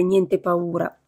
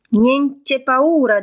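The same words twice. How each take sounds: First: Said in the usual way. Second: "Niente paura" slow, higher, louder and mangled; garbled. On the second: Acted. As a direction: drag out "Niente paura" slowly so it comes out garbled. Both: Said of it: "intendendo dire niente paura".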